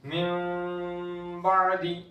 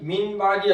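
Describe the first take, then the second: First: The n becomes a soft nasal m before b. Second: The n is pronounced clearly before the b. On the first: The speaker calls it right. "मिन बादी इख्फा करके" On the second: The speaker calls it wrong. "मिन बादी ऐसे नहीं"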